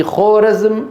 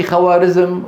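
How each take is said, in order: First: خورزم said khoo-razm, with a long o; drawn-out خورزم with silent alif, khorazm; correct native pronunciation. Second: خوارزم said khawarizm, with w and long aa; misreading with long aa. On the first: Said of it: "في خورزم". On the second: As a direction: read خوارزم letter by letter as khawarizm. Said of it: "ما في خوارزم". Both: Shown as a demonstration.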